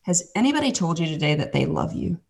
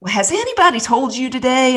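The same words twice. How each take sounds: First: Softer, gently retold question; tender. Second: High, put-on Southern lady voice; Southern accent. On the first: Lady asking the hiding kid, tender and soft. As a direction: ask it softly, as if to a shy child. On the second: Lady greeting the hiding kid, imitated Southern accent. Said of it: "I can't even do her Southern accent".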